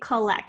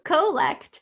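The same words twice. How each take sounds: First: The first vowel is a reduced schwa. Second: The first vowel is a full, clear O. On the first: The speaker calls it right. "they say collect" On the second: The speaker calls it wrong. "people don't say co, co, collect"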